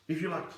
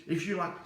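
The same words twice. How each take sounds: The two takes are said the same way.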